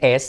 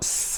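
First: A vowel sound comes before the s. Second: The s sound starts with no vowel. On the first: The speaker calls it wrong. "al principio no se dice S" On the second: The speaker calls it right. "sino S"

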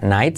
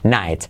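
First: The word begins with a K sound. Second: The word begins with an N sound. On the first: The speaker calls it wrong. "No se dice night" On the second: The speaker calls it right. "la K tampoco se pronuncia"

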